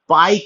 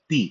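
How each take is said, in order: First: The word ends with an 'eye' vowel sound. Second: The word ends with an 'ee' vowel sound. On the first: "जिसको हम लोग पाई कहते हैं" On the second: "but इसका उच्चारण होता है पी"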